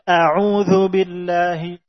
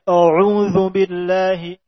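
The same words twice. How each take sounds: First: The opening hamzah is thin, light and not darkened. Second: The opening hamzah is thickened, heavy and darkened. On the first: The speaker calls it right. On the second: The speaker calls it wrong. "Tidak dibaca"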